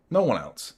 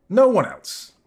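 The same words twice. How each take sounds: First: Said in the usual way. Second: Emphatic. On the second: Real, not acted. Emphatic repeat.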